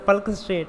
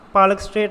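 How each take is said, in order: First: The first word is said as one syllable, 'palk'. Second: The first word is said as two syllables, 'paa-lak'. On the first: The speaker calls it right. "पल्क straight है" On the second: The speaker calls it wrong. "पालक straight मत बोल देना"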